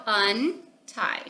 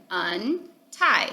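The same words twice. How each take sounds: First: Untie broken into un and tie; sounded out. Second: Said in the usual way. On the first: Shown as a demonstration. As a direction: sound out untie one part at a time. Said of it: "and you sound it out". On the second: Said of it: "So again".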